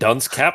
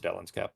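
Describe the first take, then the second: First: The first word sounds like 'dunce'. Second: The first word sounds like 'Dellen's'. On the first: The speaker calls it wrong. "You're saying dunce cap" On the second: The speaker calls it right. "that it's Dellen's cap"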